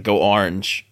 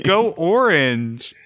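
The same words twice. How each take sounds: First: "Orange" squeezed toward "arnj"; own regional orange. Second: Slow, higher "Orange" with a clear OR; corrective O in orange. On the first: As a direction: say "Orange" with AR for the first vowel. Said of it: "I say, like". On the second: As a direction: insist on "Orange" as OR-inj. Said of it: "The emphasis is on, is on O". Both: Shown as a demonstration.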